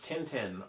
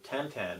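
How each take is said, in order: First: The name is said with plain English-style vowels. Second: The name is said with French-style nasal vowels.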